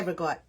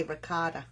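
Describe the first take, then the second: First: "regot" as ruh-GOT, final vowel dropped; two syllables, "regot", stressed on GOT; our dialect pronunciation. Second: "ricotta" in full, three syllables ending in ah; their pronunciation. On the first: Correcting a viewer on how we say it, "regot" without the last vowel. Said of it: "No, we say regot". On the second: Conceding how they say it, "ricotta" with its full ending. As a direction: say "ricotta" with the final ah sounded. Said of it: "they say ricotta". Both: Shown as a demonstration.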